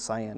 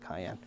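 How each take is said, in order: First: It sounds like 'sigh-an', starting with an s. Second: It sounds like 'kai-en', starting with a k. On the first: The speaker calls it right. "the proper pronunciation is cyan" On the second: The speaker calls it wrong. "I like to say cayenne"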